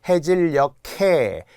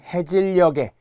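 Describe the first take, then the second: First: The final consonant links as an aspirated k. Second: The final consonant links as a plain g. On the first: The speaker calls it right. "이래야 되겠죠" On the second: The speaker calls it wrong. "모두 틀린 겁니다"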